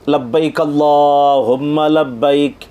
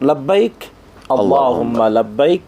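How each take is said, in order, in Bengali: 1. শব্দগুলো বিরতি ছাড়াই একসাথে জুড়ে বলা হয়। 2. প্রতিটি শব্দ আলাদাভাবে, বিরতি দিয়ে বলা হয়। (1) "এদগাম করে মিলিয়ে পড়ল" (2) "থেমে থেমে পড়ে, ভেঙ্গে ভেঙ্গে আলাদা উচ্চারণ করে পড়ে"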